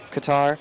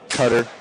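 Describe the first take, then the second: First: It is not said like the word cutter. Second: It is said like the English word cutter. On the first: This is the proper pronunciation. The speaker calls it right. "it's technically supposed to be pronounced Qatar" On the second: This is how Americans say it. The speaker calls it wrong. "American people, you know how they pronounce it?"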